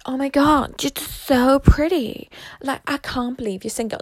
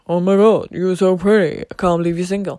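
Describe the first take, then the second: First: It is said in a woman's voice. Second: It is said in a man's voice.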